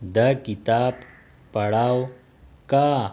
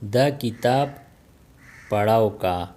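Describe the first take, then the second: First: The final ending is shortened to ka. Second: The final ending is shortened to ka.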